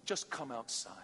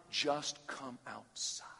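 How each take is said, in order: First: Softer, gentle call; soft invitation. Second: Slow breathy whispered plea. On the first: Pretend. Jesus calling the listener outside, soft. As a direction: invite them tenderly. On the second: Acted. Preacher urging students to come outside, slow whisper. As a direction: whisper it slowly to the room.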